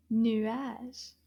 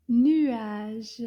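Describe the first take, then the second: First: Said in the usual way. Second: Nuage, louder, French u glide into a; model word. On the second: Shown as a demonstration. Teacher modelling nuage for kids, loud and clear. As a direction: say nuage out clearly for them to copy. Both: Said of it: "Can you say that?".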